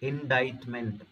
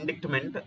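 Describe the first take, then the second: First: No 'k' sound is pronounced before the 't'. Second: A 'k' sound is pronounced before the 't'. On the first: The speaker calls it right. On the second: The speaker calls it wrong.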